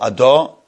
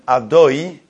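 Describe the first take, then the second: First: The vowel after the d is an 'a' sound. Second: The vowel after the d is a clear 'o'. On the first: The speaker calls it wrong. "people who say the dalet with the comets" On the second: The speaker calls it right. "the name of Hashem"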